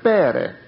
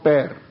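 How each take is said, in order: First: The word ends with a pronounced vowel. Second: The word ends with a consonant. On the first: Every written letter is voiced. "Αν θα θέλαμε να το πούμε και αυτό, θα το λέγαμε «πέρε»" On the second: The silent final letter is left out. "αντί να πω «πέρ»"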